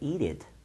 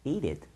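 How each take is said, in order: Both takes have the same delivery.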